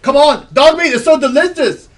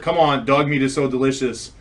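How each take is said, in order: First: It is read in a put-on voice. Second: It is read in a plain voice.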